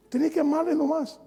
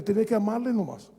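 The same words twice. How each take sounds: First: "Tenés que amarle nomás" repetido en tono mucho más alto; repetido más agudo. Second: Said in the usual way. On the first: Shown as a demonstration. (frase repetida más aguda y enfática)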